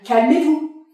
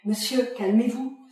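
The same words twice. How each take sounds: First: Lance un calmez-vous sec et fort; ordre crié. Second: Said in the usual way. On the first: Acted. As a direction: hausse la voix pour le faire taire. Agent orders the man to calm. (calmez-vous crié plus haut et plus fort)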